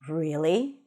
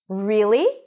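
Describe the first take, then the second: First: It is said on a lower pitch. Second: It is said high and rising, like a question. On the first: The speaker is a bit scared or anxious. "If I use a lower pitch" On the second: The speaker is surprised or excited. "If I lift the pitch up, sounds almost like a question, and I use a higher pitch"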